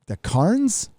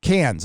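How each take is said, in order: First: "Cairns" said like "carns", questioning rise; spelling-based pronunciation. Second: "Cairns" said like "cans", falling; corrected pronunciation. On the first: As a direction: say "Cairns" with an open ar, unsure. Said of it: "but I see a C A I R". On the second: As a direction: say "Cairns" with a short flat a, no r. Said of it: "Okay, it says Cairns". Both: Real, not acted.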